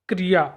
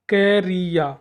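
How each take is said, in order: First: The word is said at a normal speed. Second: The word is said slowly, sound by sound.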